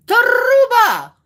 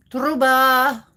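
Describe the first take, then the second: First: Truba shouted high with a long trilled R; Truba! as a high, booming R-rolling cry; big rolled R. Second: Truba with a short rolled R, moderately raised; Truba, R rolled, held back from a shout. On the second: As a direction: roll the R in Truba lightly. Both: Pretend. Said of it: "As long as we are rolling R's".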